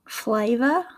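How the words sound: Spoken in an Australian English accent. "my attempt at an Australian accent"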